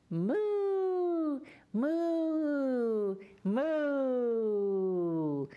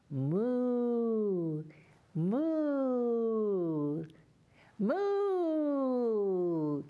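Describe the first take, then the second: First: Higher, fuller cow moos, falling; louder moo. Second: Put-on a gentle cow moo for children. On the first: Teacher asks children to moo louder, louder moo. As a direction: moo bigger so they hear you. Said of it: "Can you say it a little louder". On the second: Teacher models a moo for the children. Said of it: "Can you moo?". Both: Shown as a demonstration.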